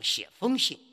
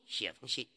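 First: The measure word carries its full tone. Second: The measure word is said in neutral tone. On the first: The speaker calls it wrong. "不要读写风信" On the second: The speaker calls it right. "写风信就行了"

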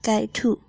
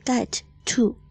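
First: The two t sounds merge into one. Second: Both t sounds are pronounced separately. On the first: "get 和to 可以连读成get to，就是省略掉一个t" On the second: "要正常的话呢是get to"

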